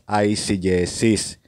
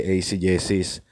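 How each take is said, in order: First: The first syllable sounds like 'ice'. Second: The first syllable does not sound like 'ice'. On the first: The speaker calls it right. "Ang tamang pronunciation po is eisegesis" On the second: The speaker calls it wrong. "hindi eisegesis"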